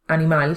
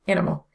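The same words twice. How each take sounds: First: The stress is on the final syllable. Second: The stress is on the first syllable. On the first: "In Spanish, animal carries emphasis on the final syllable" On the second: "but in English it's on the first syllable"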